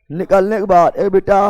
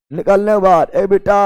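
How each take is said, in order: Both takes have the same delivery.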